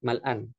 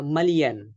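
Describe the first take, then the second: First: "Mal'an" said with a short glottal break, mal-an; formal Arabic "Mal'an"; standard Arabic mal'an. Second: "malian" said as three syllables, ma-li-an, with no glottal break; spoken-Arabic "malian", a little louder; colloquial Arabic malian. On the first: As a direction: classical "Mal'an", stressed on the first syllable. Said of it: "bukan mal'an, tapi milian". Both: Shown as a demonstration.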